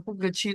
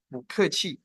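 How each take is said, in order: First: "pu ke qi" with pu kept in fourth tone. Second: "bu ke qi" with bu rising second tone; tone sandhi bu. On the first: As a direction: read "pu ke qi" without sandhi. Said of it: "bacanya bukan pu ke qi". ("pu ke qi" dibaca pu nada empat) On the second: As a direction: say "bu ke qi", bu lifted to second tone. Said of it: "tapi bu ke qi". ("bu ke qi" dengan bu naik nada kedua) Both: Shown as a demonstration.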